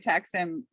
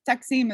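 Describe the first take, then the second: First: It is pronounced with an American accent. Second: It is pronounced the native Turkish way. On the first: "Americans say Taksim" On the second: "Taksim is like the proper way"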